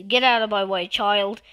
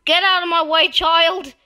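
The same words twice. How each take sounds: First: Said in the usual way. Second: Loud, high yelled order; impatient shout. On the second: Real, not acted. Player ordering a child out of the way, impatient shout. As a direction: shout them out of the path.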